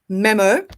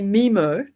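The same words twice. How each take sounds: First: It is said with a British accent. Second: It is said with an American accent. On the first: "in England we say memo" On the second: "the Americans say memo, which sounds like a, a, a Finding Nemo"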